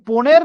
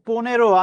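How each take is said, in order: First: The word ends on the final consonant sound. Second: The word ends with an added o vowel. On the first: The speaker calls it wrong. "এটা কি পনের না পনেরো?" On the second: The speaker calls it right. "সবার উত্তর correct হয়েছে, পনেরো।"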